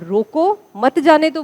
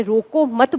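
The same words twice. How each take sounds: First: "रोको" set apart, then "मत जाने दो" together; slow, pause after "रोको", grouping "मत" with "जाने दो"; phrased as stop them. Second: "रोको मत" run together as one phrase; no pause between "रोको" and "मत"; phrased as don't stop. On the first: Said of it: "इसको as it is ग्रहण करें". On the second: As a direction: join "मत" straight onto "रोको". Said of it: "हमें रोकना नहीं है". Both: Shown as a demonstration.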